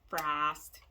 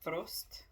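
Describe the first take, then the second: First: It is said in a nasal Midwestern American accent. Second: It is said without a nasal American accent. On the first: "as we would say. We nasally Americans" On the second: "Hopefully I pronounced that right"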